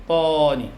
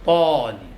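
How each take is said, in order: Both takes have the same delivery.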